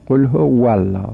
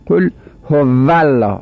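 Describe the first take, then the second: First: هو الله as howa-llah with rounded lips; correct Arabic w. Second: هو الله run together as ho-vallah; Persian v, mistaken. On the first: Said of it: "باید بگیم". («هو الله» با واو لبی عربی) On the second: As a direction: say هو الله with a buzzing toothed v. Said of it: "این غلط". («هو الله» با واو دندانی فارسی) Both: Shown as a demonstration.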